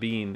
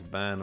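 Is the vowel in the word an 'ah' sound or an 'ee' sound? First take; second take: ee sound; ah sound. First: The vowel is a long ee sound. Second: The vowel is an open ah sound. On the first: The speaker calls it wrong. "It's not Bean" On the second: The speaker calls it right. "that's how you pronounce it, Ban Og"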